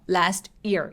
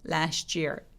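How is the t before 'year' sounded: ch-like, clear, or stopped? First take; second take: stopped; ch-like. First: The breath is held at the t. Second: The t and y blend into a ch sound. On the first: The speaker calls it wrong. "T 부분에서 숨을 참고 들어가는 방법" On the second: The speaker calls it right. "year라고 ch처럼 살짝"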